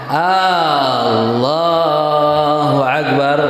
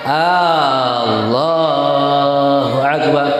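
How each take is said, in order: No difference in how they are said.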